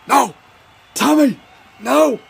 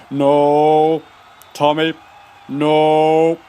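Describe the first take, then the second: First: High-pitched, urgent teammate's yelp; panicked cry. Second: Long drawn-out "No. Tommy. No."; coach's warning call. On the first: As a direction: cry out high to stop him. Teammate cries out to stop Tommy. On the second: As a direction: call out slowly, stretching each word. Coach calls out to stop Tommy. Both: Acted.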